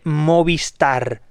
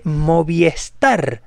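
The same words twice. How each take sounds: First: No extra vowel is added before star. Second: An extra e vowel is added before star. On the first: The speaker calls it right. "pronunciar correctamente Movistar" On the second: The speaker calls it wrong. "el 99% dice Movistar. No hay una E en la marca Movistar"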